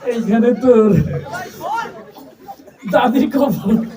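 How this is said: The line is recited in a shy, timid voice. The reciter is too bashful to perform. "তুই যে সরমালা মানুষ"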